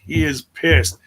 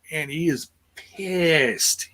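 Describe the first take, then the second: First: Said in the usual way. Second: Drawn out slowly, leaning on pissed; slow emphatic. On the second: Shown as a demonstration. Co-host stressing the wrestler's anger, slow and drawn out. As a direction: stretch the words and land hard on pissed.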